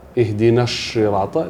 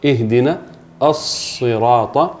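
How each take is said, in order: First: The first sound of sirata is like sh. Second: The first sound of sirata is a clear s. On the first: The speaker calls it wrong. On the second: The speaker calls it right.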